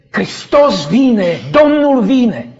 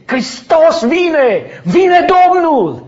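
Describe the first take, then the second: First: Mock yell, louder and slowly rising; joyful yell. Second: Higher, louder, slow joyful yell; ecstatic shout. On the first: Dreamer yelling with all his strength in the dream, loud call. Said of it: "Eu urlam cât mă țineau puterile". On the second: Retold or imitated. Dreamer yelling to the sky as Christ comes, full shout. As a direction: cry it out with all your lungs. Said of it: "am strigat și am urlat din toți plămânii".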